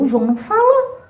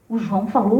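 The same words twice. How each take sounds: First: Higher, laughing "o João não falou"; amused, higher-pitched "o João não falou"; laughing contrast. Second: Low, soft "O João falou" said to herself; quiet puzzled "O João falou"; low musing take. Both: Retold or imitated.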